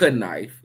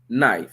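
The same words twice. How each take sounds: First: The word starts with a sounded K. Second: The word starts with a plain N sound. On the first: The speaker calls it wrong. "it's not knife" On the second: The speaker calls it right. "it's knife. So that H is just as silent as that K for knife"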